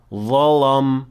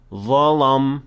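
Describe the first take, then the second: No difference in how they are said.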